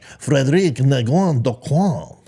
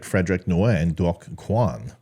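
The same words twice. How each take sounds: First: The name is said with a French accent. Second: The name is said with an English accent.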